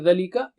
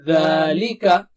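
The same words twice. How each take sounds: First: The first vowel is cut short. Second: The first vowel is stretched long. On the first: The speaker calls it wrong. "So you don't say ذلك" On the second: The speaker calls it right. "It's just like alif mad"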